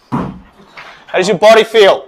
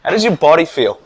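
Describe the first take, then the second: First: Louder, slower, drawn-out question; hyped-up repeat. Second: Said in the usual way. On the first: Real, not acted. Coach asking again with more energy. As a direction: pump them up with the question.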